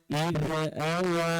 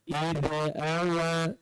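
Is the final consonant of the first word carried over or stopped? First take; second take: carried over; carried over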